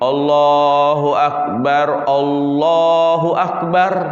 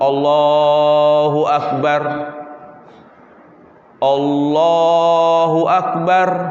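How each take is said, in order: First: Both phrases are joined in one breath. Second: Each phrase is said with a separate breath. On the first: "dua kalimat takbir dalam satu nafas" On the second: "dipisah satu-satu"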